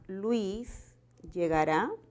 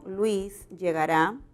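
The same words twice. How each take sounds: First: The pitch rises at the end. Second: The pitch falls at the end. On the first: It asks whether Luis will arrive. "si hacemos de esto una pregunta" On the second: It states that Luis will arrive. "si la oración fuera una afirmación, ... el tono final es descendente"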